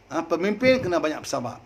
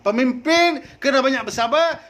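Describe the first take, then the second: First: Said in the usual way. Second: Higher and louder, rising on pemimpin; a preacher's raised, insistent restatement; raised emphatic repeat. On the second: Shown as a demonstration. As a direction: drive the point home to the crowd. Same phrase repeated, louder.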